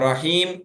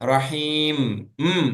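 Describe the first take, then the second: First: The final m is cut off short. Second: The final m is held and fully finished. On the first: The speaker calls it wrong. "அப்படி கட் பண்ணக்கூடாது" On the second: The speaker calls it right. "அந்த இம் ஃபினிஷ் பண்ணணும்"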